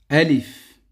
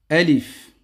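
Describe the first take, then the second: Both takes have the same delivery.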